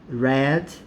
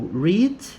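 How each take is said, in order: First: The vowel is short, like 'red'. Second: The vowel is long, like 'reed'. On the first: It is the past tense form. "the pronunciation here is different" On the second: It is the present tense form. "simple present"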